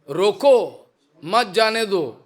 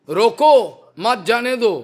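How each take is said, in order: Both takes have the same delivery.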